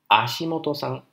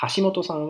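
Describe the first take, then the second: First: The name starts with no h sound. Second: The name starts with an h sound.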